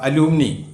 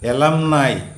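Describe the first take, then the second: First: It ends in 'ee' after 'a-loo-mi'. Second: It ends in 'eye' after 'e-lum'. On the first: The speaker calls it wrong. "തെറ്റാണ്" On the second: The speaker calls it right. "A L U M N I is എലംനായ്"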